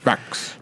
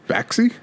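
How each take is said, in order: First: The name ends with a clear ks sound. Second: The name ends with ks plus an ee vowel. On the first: "Is it just pronounced Fax?" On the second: "but with the E"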